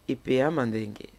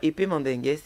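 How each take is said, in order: First: The name is said with the home-language pronunciation. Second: The name is said like the French word. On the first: The speaker calls it right. "c'est comme ça qu'on le prononce chez moi" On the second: The speaker calls it wrong. "c'est même pas épée mandingue"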